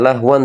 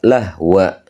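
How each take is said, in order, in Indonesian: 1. Kata ini berakhir dengan bunyi n. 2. Kata ini berakhir dengan vokal a biasa. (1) "ini tidak dibaca lahwan" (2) "dibaca jadi fathah saja"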